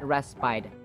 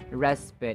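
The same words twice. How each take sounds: First: The final vowel is a long i sound. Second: The final vowel is a relaxed schwa. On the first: The speaker calls it wrong. "It's not respite" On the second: The speaker calls it right. "The final vowel sound is uh, as in schwa, the relaxed vowel sound"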